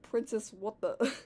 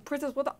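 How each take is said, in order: First: Mild replay of a puzzled line; quoting own delivery. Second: Higher-pitched, puzzled Mario line; startled character line. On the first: Retold or imitated. Reader replays Mario's line to Anna, amused imitation. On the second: A narrator's reading. Mario walks up to Anna, higher puzzled greeting. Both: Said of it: "I just love how I said".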